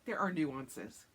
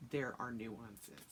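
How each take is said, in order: First: Slow, drawn-out mock serious; mock solemn husband. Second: Slow, lower mocking echo of his words. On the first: Husband defending his games, slow mock-solemn tone. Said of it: "And he's just like". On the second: Wife mocking husband's excuse, slow lower echo. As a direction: throw his line back at him, slowly. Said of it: "And I'm like".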